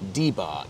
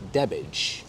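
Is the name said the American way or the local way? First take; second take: American; local. First: The name is given the outsiders' American pronunciation. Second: The name is given the locals' own pronunciation. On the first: Outsiders say it this way. The speaker calls it wrong. "the uninitiated Americans who invariably referred to it as" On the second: Locals say it this way. The speaker calls it right. "locals have always pronounced it as"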